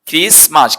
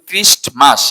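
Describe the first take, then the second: First: The t sound is left out entirely. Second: The t sound is pronounced in the middle. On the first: The speaker calls it right. "টিটা silent থাকবে" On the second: The speaker calls it wrong. "টিটা উচ্চারণ করি"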